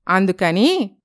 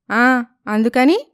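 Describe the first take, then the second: First: Said in the usual way. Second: అందుకని drawn out slowly with a rising tune; అందుకని echoed as a slow, rising question; curious echo. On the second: Acted. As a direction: repeat అందుకని slowly, asking for more.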